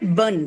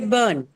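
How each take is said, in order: First: The vowel is short and clipped. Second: The vowel is long and drawn out. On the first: The speaker calls it wrong. "You don't say burn" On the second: The speaker calls it right. "You say burn"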